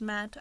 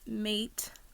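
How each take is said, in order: First: The vowel is short, rhyming with 'cat'. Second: The vowel is long, rhyming with 'gate'. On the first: The speaker calls it right. "It's probably pronounced Matte" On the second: The speaker calls it wrong. "I always say it wrong, but I call it Mate"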